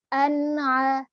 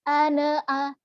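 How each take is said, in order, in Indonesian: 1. Bunyi n mengalir bersih ke bunyi berikutnya. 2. Ada vokal tambahan yang memantul setelah n. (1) "dia harus dibaca secara idhar, secara jelas" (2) "Seringkali terjadi kesalahan adalah ditambah-tambahi kol-kolah di sini"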